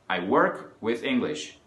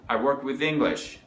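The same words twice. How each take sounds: First: It is spoken at a slower, careful pace. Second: It is spoken at a faster pace.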